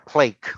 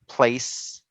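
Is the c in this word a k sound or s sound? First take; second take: k sound; s sound. First: The c is said as a k sound. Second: The c is said as an s sound. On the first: The speaker calls it wrong. "nor plake" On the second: The speaker calls it right. "So it's a face, place"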